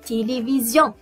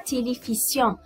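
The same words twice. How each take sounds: First: The middle consonant is a buzzing z sound. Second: The middle consonant is a hissing s sound. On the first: The speaker calls it right. "car le S est entre deux voyelles" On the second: The speaker calls it wrong. "On ne dit pas télévision"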